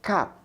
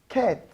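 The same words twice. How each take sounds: First: The vowel is an open 'a' sound. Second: The vowel is a short 'eh' sound. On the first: The speaker calls it wrong. "not cat" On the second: The speaker calls it right. "If you are pronouncing this sound, is eh"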